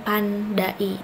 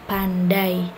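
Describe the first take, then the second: First: The a and i fall in separate syllables. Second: The a and i stay in one syllable. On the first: The speaker calls it wrong. "bukan pandai" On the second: The speaker calls it right. "antara A dengan I itu tidak dipenggal"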